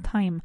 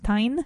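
First: The final M sound is clearly marked. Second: The final M sound is weak. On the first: The speaker calls it right. "marcarme bien esa M en time" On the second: The speaker calls it wrong. "no es time"

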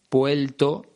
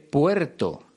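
First: The middle r sounds like an l. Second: The middle r is a clear r.

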